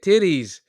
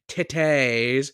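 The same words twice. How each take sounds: First: The word is said short and plainly. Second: The word is said slowly and drawn out. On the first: "That's how you say it" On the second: "you really want to draw it out, then you say titties"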